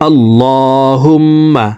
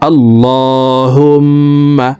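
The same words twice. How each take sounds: The two takes are said the same way.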